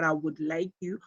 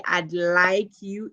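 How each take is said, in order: First: Said in the usual way. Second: Slow "I'd like you" with "I would" shortened to "I'd"; contracted "I'd". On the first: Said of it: "instead of". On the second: Shown as a demonstration. Teacher praises students' reading, contracted "I'd". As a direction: say "I'd" as one syllable, slowly. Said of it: "you managed to say".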